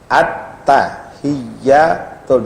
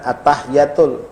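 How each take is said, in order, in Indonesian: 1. Bunyi t dan y dibaca ganda. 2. Bunyi t dan y dibaca tunggal. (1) "di atas ta ada sabdu, di atas ya ada sabdu" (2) "bukan at-tahiyatul"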